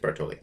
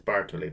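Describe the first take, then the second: First: The stress is on the middle syllable. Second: The stress is not on the middle syllable. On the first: "Usually the accent in Italian would be on the second to last syllable" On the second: "but for some reason I think it's Bartoli"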